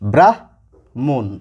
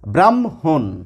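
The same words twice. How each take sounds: First: The h sound comes before the m. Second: The m sound comes before the h. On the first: The speaker calls it wrong. "প্রথমে কি রয়েছে? হ, পরে রয়েছে ম। তাহলে এই শব্দটির উচ্চারণ হওয়া উচিত" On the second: The speaker calls it right. "একটু শুদ্ধ করে বলার চেষ্টা করি ... মটি আগে এসেছে, হটি পরে গেছে"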